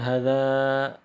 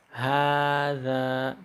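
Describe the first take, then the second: First: The first vowel is said short. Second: The first vowel is said long. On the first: The speaker calls it wrong. "bukan hadza" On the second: The speaker calls it right. "tapi hadza, karena ada yang di dihapus"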